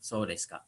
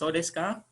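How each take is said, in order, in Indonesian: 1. Nadanya turun di akhir. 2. Nadanya naik di akhir. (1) "Jadi nadanya ke bawah" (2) "Kalau nadanya ke atas"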